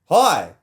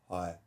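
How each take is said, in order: First: The word ends on a high pitch. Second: The word ends on a low pitch.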